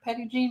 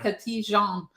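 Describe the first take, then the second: First: The name is said with American English sounds. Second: The name is said with French sounds. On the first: The speaker calls it right. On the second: The speaker calls it wrong.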